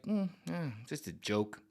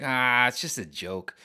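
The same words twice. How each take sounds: First: Mumbled, quieter brush-off; offhand mumble, nothing to see here; shrugging it off. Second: Slow, easy dismissal; drawn out breezy just a joke; casual brush-off. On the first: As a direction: play it down softly and shrug. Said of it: "Be like". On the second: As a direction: wave it away unbothered. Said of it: "just be like". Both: Retold or imitated.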